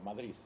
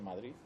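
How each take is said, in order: First: The word ends with a th sound. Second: The word ends with a d sound. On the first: "Con una Z" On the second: "esa D final"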